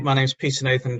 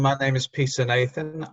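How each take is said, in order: First: It is said at a fast pace. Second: It is said at a slow pace.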